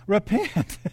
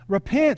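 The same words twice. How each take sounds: First: It is said in a Southern US accent. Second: It is said in a neutral accent. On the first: "Say with a southern accent" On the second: "All together"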